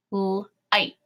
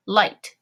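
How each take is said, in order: First: "light" split into l, ight, t; sounded out. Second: Said in the usual way. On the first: Shown as a demonstration. Teacher tapping a second syllable, "light" in separate sounds. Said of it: "tap out our two syllable word". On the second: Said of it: "and say it".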